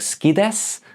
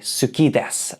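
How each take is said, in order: First: It is said fast with the first vowel dropped. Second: It is said carefully with every vowel pronounced. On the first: "When people say it really fast, it kind of sounds like ski desu" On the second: "I try to say suki desu"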